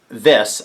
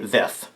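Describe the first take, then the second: First: The word ends with a clear S sound. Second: The word ends with a lisped TH sound. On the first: "instead of saying this" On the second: "I'd say thith"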